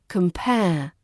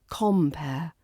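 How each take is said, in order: First: The stress is on the second syllable. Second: The stress is on the first syllable. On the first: To examine similarities and differences. "the stress is on the second syllable" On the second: A host at a show or event. "the stress falls on that first syllable ... the more open o sound"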